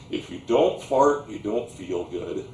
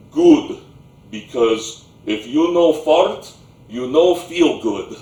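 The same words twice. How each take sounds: First: Said in the usual way. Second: Put-on loud Slavic-accented grandpa in broken English; booming Slavic accent. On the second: Grandpa approving of the boy's nod, booming Slavic accent. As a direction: pronounce it loudly with a thick Slavic accent. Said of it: "thick Slavic accent, that booming voice".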